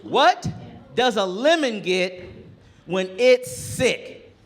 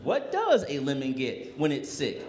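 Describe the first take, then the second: First: Put-on higher, louder, slow drawn-out kid riddle; milk the setup like a proud boy; boy proudly setting up his joke, slow and high; kid telling a joke. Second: Said in the usual way. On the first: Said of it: "And he goes". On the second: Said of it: "And I was like".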